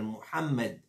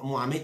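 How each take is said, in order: First: The name is pronounced carefully and fully. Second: The name is pronounced in a distorted way. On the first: The speaker calls it right. "il appelle Mohamed" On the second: The speaker calls it wrong. "il ne appelle pas Mohamed"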